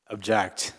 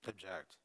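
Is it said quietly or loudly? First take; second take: loudly; quietly. First: It is said loudly. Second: It is said quietly.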